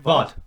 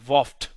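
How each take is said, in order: First: The name ends without an f sound. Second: The name ends with an f sound. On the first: The speaker calls it right. "Am I saying it right?" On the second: The speaker calls it wrong. "I always want to say rough, like Voft"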